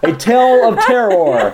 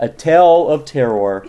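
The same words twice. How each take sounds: First: Slow, spooky announcer with a laugh; vintage horror narrator. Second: Slow, ominous horror announcer; vintage horror narrator. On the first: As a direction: ham up a horror title. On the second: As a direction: draw out the title like old radio. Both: Acted.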